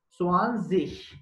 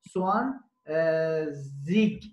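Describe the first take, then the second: First: The ending is an sh-like sound. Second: The ending is not an sh-like sound. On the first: This is the standard German form being taught. "Swan Sich Ş sesi veriyor" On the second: This is how it is said in northern Germany and Switzerland. "Kuzey Almanya ve İsviçre'de Swan Sich söylüyorlar"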